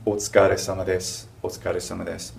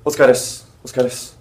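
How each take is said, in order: First: Every syllable of "Otsukare-sama desu" said carefully; polite, careful greeting for a boss; crisp and complete; clearly spoken. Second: "otsukares" fast, sama and de gone; casual clipped greeting; shortened Otsukares. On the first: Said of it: "something more clearly spoken". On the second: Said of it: "it would sound like". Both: Shown as a demonstration.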